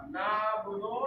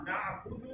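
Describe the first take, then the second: First: नाबुदो said with a plain o ending; wrong na'budo. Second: नाबुदु ending in u, soft; correct na'budu. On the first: Teacher showing the mistaken नाबुदो ending. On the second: Teacher giving the correct नाबुदु ending. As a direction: end नाबुदु on a clear u. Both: Shown as a demonstration. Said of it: "नाबुदो नहीं है".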